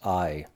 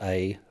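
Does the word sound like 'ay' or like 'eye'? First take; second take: eye; ay. First: The word sounds like 'eye'. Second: The word sounds like 'ay'. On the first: The speaker calls it right. "The correct pronunciation of the word Ai is I" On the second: The speaker calls it wrong. "not A"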